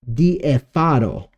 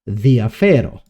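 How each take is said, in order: First: An e and an a trade places. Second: The vowels are said in their usual places. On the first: The speaker calls it wrong. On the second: The speaker calls it right.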